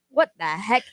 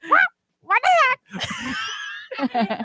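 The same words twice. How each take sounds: First: It is said in an ordinary speaking voice. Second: It is said in an imitated parent voice.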